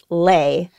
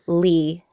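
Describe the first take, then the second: First: The name has the vowel of 'day'. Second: The name has the vowel of 'see'. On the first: This is the traditional Vietnamese way of saying the name. "the traditional pronunciation of the last name L-E is Lay" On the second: This is the American way of saying the name. "I'm used to calling myself Lee"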